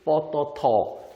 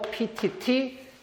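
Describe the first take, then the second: First: The letters are read with Thai names. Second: The letters are read with English names. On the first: "태국인들은 뻐터터라고 발음하겠죠" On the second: "보통은 영어로 이렇게 알고 계시죠?"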